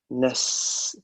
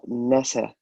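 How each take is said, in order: First: The s sound is held without an added vowel. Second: The s sound is bounced with an added vowel. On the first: The speaker calls it right. "So we say nas" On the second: The speaker calls it wrong. "we don't bounce sin"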